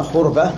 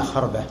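First: خربة said "khurba", u after the kh; first accepted pronunciation. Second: خربة said "kharba", a after the kh; fatha pronunciation. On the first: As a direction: say خربة with a damma on the first letter, khur-ba. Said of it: "إما خربة". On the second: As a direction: say خربة with a fatha on the first letter, khar-ba. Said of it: "الخربة بالفتح". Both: Shown as a demonstration.

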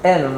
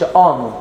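First: آنون opened with a front "ae" vowel, "aenon"; fronted, lighter first vowel in آنون; correct vowel. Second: آنون said with a broad back "aa", "AA-non"; backed, open first vowel in آنون; wrong vowel. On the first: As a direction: say آنون as "AE-non". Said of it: "فنقول ايه؟". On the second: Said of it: "ما بنقولش آنون". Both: Shown as a demonstration.

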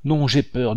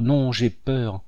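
First: Put-on girl cries out high in fear; panicked refusal; frightened cry. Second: Running away, fear fading out; fading fright. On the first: Minette fleeing down the stairs, frightened. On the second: Minette still fleeing, repeating herself fearfully. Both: A narrator's reading. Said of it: "en répétant".

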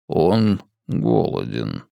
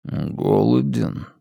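First: Low, slow, soft alien voice; a deep voice from within; alien inner voice. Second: Slow, soft, otherworldly voice; a stranger's voice inside her; alien inner voice. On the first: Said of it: "голосом, который не принадлежал ей". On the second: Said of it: "подумала она голосом, который не принадлежал ей". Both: A narrator's reading.

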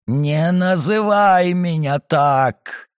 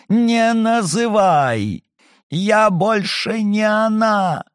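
First: Called, stressed on "называй", slow and falling. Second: "не" punched high in "Не называй!", slow; stress on не, shouting. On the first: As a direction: lean on "называй", draw the phrase out slow. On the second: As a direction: hit "не" hard in a higher slow cry. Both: Acted. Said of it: "сорвалась на крик".

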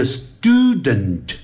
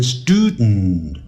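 First: "student" drawn out with a full -dent ending; stretched STOO, then a clear "dent" in "student"; slow full form. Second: "student" reduced to stood-n, vowel dropped; nasal ending. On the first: Teacher contrasting before the change, full slow "student". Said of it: "它就会变音". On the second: Teacher showing the sound change, "student" as studn. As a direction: release the end of "student" through the nose. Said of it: "用鼻音出来". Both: Shown as a demonstration.

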